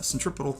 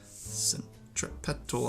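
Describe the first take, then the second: First: The word is pronounced the American way. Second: The word is pronounced the British way. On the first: "is how we say it here in America" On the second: "I think, is sort of the British way of saying it"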